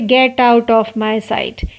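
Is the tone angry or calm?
calm. It is said in a calm tone.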